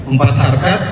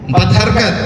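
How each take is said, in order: Both takes have the same delivery.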